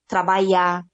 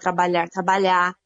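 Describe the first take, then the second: First: The word ends without the R sound. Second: The word ends with a pronounced R sound. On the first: This is the caipira dialect form. "quando cai um prefixo, ou cai um final" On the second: This is the standard form. "ao invés de falar trabalhar"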